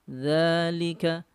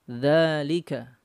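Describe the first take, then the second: No difference in how they are said.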